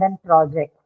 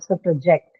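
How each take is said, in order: First: The stress is on the first syllable. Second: The stress is on the second syllable. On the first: It is used as a noun. "If it's used as a noun" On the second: It is used as a verb. "on the second syllable. ... it's used as a verb"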